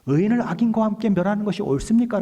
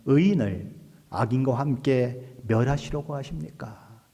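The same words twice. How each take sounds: First: High, loud acted protest; 따지는 challenge. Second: Slow, measured question in prayer; praying. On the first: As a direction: challenge God with a raised, insistent question. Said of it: "라고 따지는 거예요". (높고 크게 따져 묻는 말투) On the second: Retold or imitated. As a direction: put the question to God slowly and deliberately. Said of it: "롯을 위해서 기도하죠". (천천히 기도하듯 여쭙는 말투)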